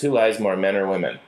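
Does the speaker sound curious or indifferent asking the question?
indifferent. The question sounds offhand and uninterested. The asker does not care about the answer. The speaker calls it wrong. "the second one doesn't feel like it's something that I actually want to know or, or care about"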